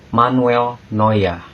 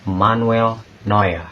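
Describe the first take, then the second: First: The vowel sounds like 'oy', ending like 'a'. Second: The vowel sounds like 'oy', ending like 'a'.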